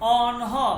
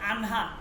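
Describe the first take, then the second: First: The first vowel is a rounded 'o' sound. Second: The first vowel is an open 'a' sound. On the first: This is the standard Persian pronunciation. The speaker calls it right. "যেমন অনহ মানে তারা" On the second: This is how people in this region say it. The speaker calls it wrong. "আমরা বলে থাকি আনহা"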